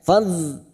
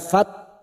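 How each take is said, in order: First: The syllable ends with a soft dh sound. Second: The syllable ends with a sharp t sound. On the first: The speaker calls it right. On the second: The speaker calls it wrong.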